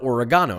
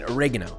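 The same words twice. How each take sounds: First: It is said in a British accent. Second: It is said in an American accent.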